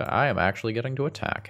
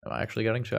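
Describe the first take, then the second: First: Higher, fast, delighted; excited realization. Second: Doubtful, half-asked question; unsure question. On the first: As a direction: burst out in happy surprise. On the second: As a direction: wonder aloud if it's true. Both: Real, not acted.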